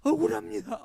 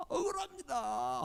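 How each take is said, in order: First: High, loud, crying wail; sobbing. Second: Drawn-out, weeping sigh; slow tearful plea. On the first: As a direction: cry it out in despair. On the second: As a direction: let it fade slowly through tears. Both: Retold or imitated. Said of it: "하고 엉엉 울면서".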